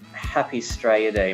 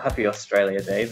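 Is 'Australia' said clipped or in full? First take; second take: clipped; full. First: Australia is clipped to two quick syllables. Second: Australia is said in full, all syllables. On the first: The speaker calls it right. "you have to say Happy Straya Day" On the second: The speaker calls it wrong. "Not Happy Australia Day"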